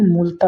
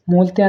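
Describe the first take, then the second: First: Said in the usual way. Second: मूलतया with an added "ya"; mispronunciation. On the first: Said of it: "मूलता होता है". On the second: Shown as a demonstration. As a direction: end मूलतया on tya, not ta. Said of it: "मूलतया नहीं". (मूलतया के अंत में 'या')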